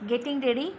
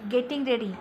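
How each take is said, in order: First: It is said as a question. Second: It is said as a statement. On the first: It asks, in surprise, whether someone is getting ready. "तयार होत आहेस" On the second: It states that the speaker is getting ready. "तयार होतोय"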